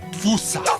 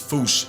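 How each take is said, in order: First: It is said the American way, like 'foosa'. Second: It is said the Malagasy-style way, like 'foosh'. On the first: This is how Americans say it. "Americans saying Fusa" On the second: This is closest to the original pronunciation. "if you want to feel better than everyone, it's Foosh"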